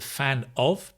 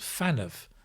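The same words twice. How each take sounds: First: The two words are said separately. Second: The two words run together as one unit. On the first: "Notice the fan of" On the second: "becomes fan of"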